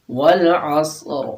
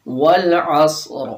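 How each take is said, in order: First: Slow والعصر, ص thick and hard; slow repeat of والعصر with a hard ص; heavy sad repeated. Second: Slow والعصر with a heavy ص; slow tajweed with thick ص in والعصر; heavy sad. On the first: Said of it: "صاد کے اندر سختی لانی ہے". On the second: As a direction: recite والعصر slowly, ص full and hard. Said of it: "اس میں بھی سیٹی کی آواز ہوگی". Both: Shown as a demonstration.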